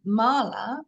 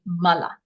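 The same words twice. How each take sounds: First: The first vowel is long. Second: The vowels are short. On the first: "To read it as we all in fact do" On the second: "without the line over it, to read that word with Sanskrit pronunciation"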